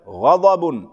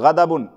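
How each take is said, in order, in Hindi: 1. पहले व्यंजन भारी और मोटे सुनाई देते हैं। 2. पहले व्यंजन हल्के और सादे सुनाई देते हैं। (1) "गान भी और द्वाद भी मोटे होंगे" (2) "ऐसे नहीं पढ़ेंगे सिंपल गदाबुन, गलत है"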